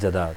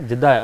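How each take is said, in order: First: The first vowel is an 'a' sound. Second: The first vowel is an 'i' sound. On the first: The speaker calls it wrong. "हम कहते हैं जद्दा जा रहे हैं, it's not a जद्दा" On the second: The speaker calls it right. "इसका सही pronounce"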